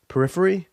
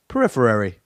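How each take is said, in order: First: Periphery? tried out with a questioning rise; testing how periphery sounds, unsure; unsure of word. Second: Periphery said firmly with a falling close; settling on word. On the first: Host unsure of the word, trying periphery with a rising question. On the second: Host deciding on the word, saying Periphery firmly and settled. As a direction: commit to Periphery, falling and final. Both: Real, not acted. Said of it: "I'm gonna go with that".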